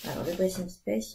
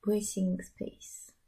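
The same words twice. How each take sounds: First: Said in the usual way. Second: Dressing Space whispered very slowly, each syllable drawn out; careful whispered name. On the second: Shown as a demonstration. Knitter repeats the pattern name slowly for viewers, whispered. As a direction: breathe Dressing Space slowly, spelling out the English sounds. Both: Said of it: "avec mon accent formidable".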